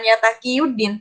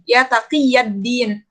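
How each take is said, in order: First: The vowel before 'ddin' is a 'u' sound. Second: The vowel before 'ddin' is an 'a' sound. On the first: The speaker calls it wrong. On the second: The speaker calls it right.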